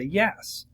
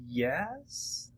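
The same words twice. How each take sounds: First: It sounds confident and sure. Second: It sounds doubtful and unsure.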